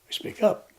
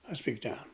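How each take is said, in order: First: It is said loudly, with high energy. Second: It is said softly, with low energy.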